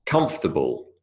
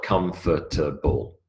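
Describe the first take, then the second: First: "comfortable" said as COMF-ta-ble, middle squeezed out; elided three-syllable comfortable. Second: "comfortable" in four slow syllables, COM-FOR-TA-BLE; over-full comfortable. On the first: Lecturer showing students the elided form, three-syllable "comfortable". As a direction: say "comfortable" in three syllables, KUMF-tuh-bul. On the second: Lecturer showing the form to avoid, over-pronounced four-syllable "comfortable". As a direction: sound out every syllable of "comfortable", slowly. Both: Shown as a demonstration. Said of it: "It is not comfortable".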